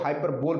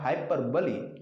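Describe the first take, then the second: First: It is said with three syllables, ending in 'bole'. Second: It is said with four syllables, ending in 'buh-lee'. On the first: The speaker calls it wrong. "निन्यानवे percent लोग इसको हाइपरबोल पढ़ते हैं, जो कि सरासर गलत है" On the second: The speaker calls it right. "इसका प्रोनाउंसिएशन होता है हाइपरबली"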